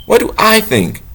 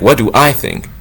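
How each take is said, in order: First: What do I think? lifted much higher in pitch; higher, questioning take. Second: Said in the usual way. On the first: Shown as a demonstration. Asking himself instead of God, higher and wondering.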